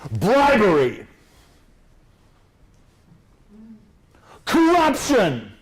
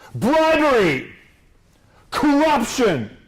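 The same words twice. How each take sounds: First: Each word is said boldly with pauses between. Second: The words are said quietly, run together, low-key. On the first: It grabs the audience like a headline. The speaker calls it right. "You want to make it bam, grab them, With pauses in between" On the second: It sounds like background detail. The speaker calls it wrong. "so you're like a subtext"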